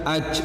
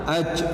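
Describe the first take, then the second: Both takes have the same delivery.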